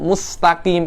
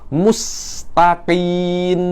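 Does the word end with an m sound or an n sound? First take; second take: m; n. First: The word ends with an m sound. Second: The word ends with an n sound. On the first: The word means straight. The speaker calls it right. "yang seharusnya mim itu mustaqim" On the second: The word has no meaning. The speaker calls it wrong. "Mim yang kedua Anda rubah menjadi nun"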